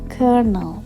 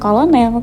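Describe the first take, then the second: First: The word is not said as it is spelled. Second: The word is said just as it is spelled. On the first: The speaker calls it right. "cara membaca kata dalam slide ini adalah colonel" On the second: The speaker calls it wrong. "bukan kolonel"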